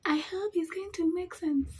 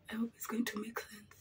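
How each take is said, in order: First: High playful voice; high put-on voice. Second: Hushed whisper. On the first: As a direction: say it high and silly. Repeats hope in a put-on voice. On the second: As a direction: breathe it under your breath. Whispered hope while doing makeup. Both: Real, not acted.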